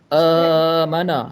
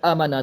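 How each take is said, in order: First: The long vowel is stretched out extra long. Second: The long vowel is cut short. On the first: "Kalau tambah amana, lebih dua-dua harakat" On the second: "Kalau kurang tak ada harakat, amana terus"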